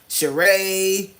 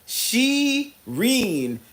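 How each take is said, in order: First: The name ends in a vowel, with no n sound. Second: The name ends with a clear n sound. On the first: The speaker calls it wrong. "people call me" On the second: The speaker calls it right. "with an N"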